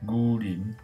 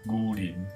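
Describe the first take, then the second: First: It is read in a Tang-era pronunciation. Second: The same.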